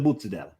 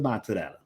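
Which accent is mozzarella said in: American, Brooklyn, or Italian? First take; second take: Brooklyn; Italian. First: It has a Brooklyn accent with the final vowel dropped. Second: It has an Italian accent with the final vowel pronounced. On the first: "Brooklyn ordering mortadella" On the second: "the real Italians going"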